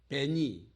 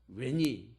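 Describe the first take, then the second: First: The word begins with a buzzing V sound. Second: The word begins with a rounded W sound. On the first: "V로도 발음하지만" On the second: "우, 위 이런 식으로도 발음을 하거든요"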